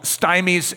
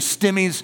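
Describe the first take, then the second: First: The first vowel sounds like 'eye'. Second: The first vowel is a short 'i'. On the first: The speaker calls it wrong. "I know that you were wanting to call them stymies and strangies, but no" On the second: The speaker calls it right. "it's from stimulation and from strangulation. So it's actually stimmies"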